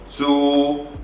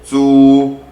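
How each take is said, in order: First: The syllable is said without a lexical tone. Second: The syllable is said with its lexical tone.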